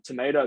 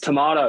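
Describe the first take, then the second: First: The word is said in an American accent. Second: The word is said in a non-American accent. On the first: The speaker calls it wrong. "I caught myself saying um tomato the other day" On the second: The speaker calls it right. "It's tomato, mate"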